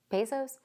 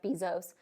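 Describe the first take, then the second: First: Bezos tried as BAY-zohss, questioning; unsure pronunciation BAY-zohss. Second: Bezos said with a long ee, BEE-zohz; pronounced BEE-zohz. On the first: Checking the billionaire's name, questioning BAY-zohss for Bezos. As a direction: ask "Bezos" as BAY-zohss with a rising end. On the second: Naming the billionaire, Bezos pronounced BEE-zohz. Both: Shown as a demonstration.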